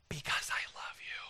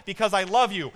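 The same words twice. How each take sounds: First: A soft whisper, barely voiced. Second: Loud and high, fervent declaration; preached loud. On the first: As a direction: breathe it like a secret to a loved one. Tender answer amid the sermon. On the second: Acted. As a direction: proclaim it to the back of the room. Shouted answer in the sermon.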